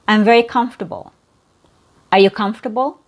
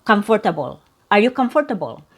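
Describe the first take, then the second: First: "comfortable" as "KUMF-tuh-bul" within the sentence; "comfortable" stressed on "comf", ending reduced; three syllables. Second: "comfortable" as "KUM-fer-tuh-bul"; "comfortable" with all four syllables sounded; four syllables, wrong way. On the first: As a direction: drop the "or" from "comfortable". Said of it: "you only hear three syllables". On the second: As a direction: keep the middle "fer" in "comfortable". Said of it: "So it's not". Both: Shown as a demonstration.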